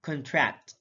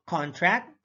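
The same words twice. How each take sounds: First: ConTRACT, weak first syllable; careful demo of conTRACT; stress on second syllable. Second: CONtract, full open CON; careful demo of CONtract; stress on first syllable. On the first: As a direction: say "contract" as kun-TRACT. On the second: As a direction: say "contract" as KAHN-tract. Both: Shown as a demonstration. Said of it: "stress is the verbal emphasis used".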